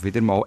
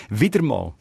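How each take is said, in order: First: Said in the usual way. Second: "wieder mal" set apart after a pause, pitch falling; stress on wieder mal. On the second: Retold or imitated. Host reads out Lisa Haag's mail, stressing "wieder mal". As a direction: lean pointedly on "wieder mal". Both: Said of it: "betont auf wieder mal".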